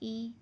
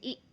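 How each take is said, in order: First: The vowel is held evenly at moderate length. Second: The vowel is cut off with an abrupt jolt. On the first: The speaker calls it right. "मुतवस्सित और मारूफ तरीके से पढ़ना है" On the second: The speaker calls it wrong. "झटका नहीं देना जैसे ई"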